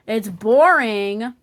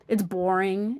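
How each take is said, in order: First: "boring" stretched out long and louder with a rising end; slow emphatic "It's boring". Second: Said in the usual way. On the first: Shown as a demonstration. Reviewer hammering home his verdict, drawn out and louder. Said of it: "by the way". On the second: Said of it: "It's boring, by the way".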